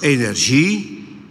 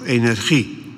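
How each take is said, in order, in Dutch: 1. De g wordt uitgesproken als een zachte zh-klank. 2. De g wordt uitgesproken als een keelachtige Nederlandse g. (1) "met de ZJ-klank van gênant" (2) "met de G van genoeg"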